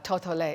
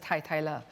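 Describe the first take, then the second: First: The syllables use 'oh' vowels: toh-toh-leh. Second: The syllables use 'eye' vowels: tie-tie-leh. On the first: This is how some colleagues say the name. The speaker calls it wrong. "you'll hear some of my colleagues call it" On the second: This is how the name should be said. The speaker calls it right. "It should really be pr pronounced as"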